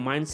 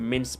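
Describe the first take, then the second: First: The vowel sounds like 'eye'. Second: The vowel sounds like 'ih'. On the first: The speaker calls it wrong. "इसको माइंस ना पढ़ा करे" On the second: The speaker calls it right. "इसको मिन्स पढ़ा करे"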